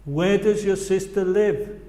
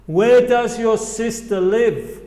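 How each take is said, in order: First: Said in the usual way. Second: Slow, louder "Where does your sister live"; slow teacher demo; slow model phrase. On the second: Shown as a demonstration. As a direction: model it slowly for the class. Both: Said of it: "repite después a mí".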